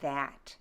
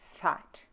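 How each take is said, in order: First: The first sound is voiced. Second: The first sound is breathy and unvoiced. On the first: "The the is voiced" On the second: "unvoiced in Middle English. You'll be breathy"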